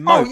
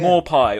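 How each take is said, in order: First: The name ends in an 'oh' sound. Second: The name ends in an 'eye' sound. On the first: The speaker calls it right. "to me, right, it's" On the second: The speaker calls it wrong. "people say"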